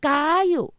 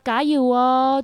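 First: It is said forcefully, like a campaign cheer. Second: It is said softly and gently, warmly.

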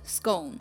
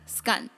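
First: The vowel rhymes with bone. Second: The vowel rhymes with gun. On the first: "有我们习惯的bone scone" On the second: "然后还有那个gun scone"

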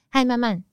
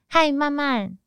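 First: The greeting is said plainly with a falling end. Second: The greeting trails off slowly and uncertainly. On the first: The speaker is neutral and matter-of-fact. "嗨慢慢句点" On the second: The speaker leaves something unsaid. "嗨慢慢点点点"

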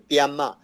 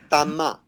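First: The first syllable is said like dia. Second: The first syllable is said like dan. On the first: It is the easier form most people use. The speaker calls it wrong. "大家就取比较容易发音的爹妈" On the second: It is the authentic pronunciation. The speaker calls it right. "地道的念法叫做丹妈"

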